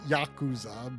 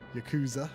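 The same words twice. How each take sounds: First: It is pronounced the Japanese way. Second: It is pronounced the American way. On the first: "going by Japanese, it would be Yakuza" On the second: "it's okay to say it in an American styled way"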